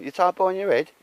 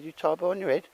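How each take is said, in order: First: High, loud voicing of a kid asking; quoting the boy's high question; mock child's question. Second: Put-on high but level retelling of the boy's line; re-quoting the boy's high question; repeating the kid's question. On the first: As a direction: squeak it out like the boy, loud. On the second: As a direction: quote the boy again, high. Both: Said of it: "He said".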